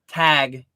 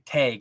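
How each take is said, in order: First: The vowel is a short a, as in cat. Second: The vowel sounds like the ay in day. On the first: This is the speaker's own way of saying it. "Whereas I say tag" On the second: This is another person's way of saying it. "more like tag, like T A Y G"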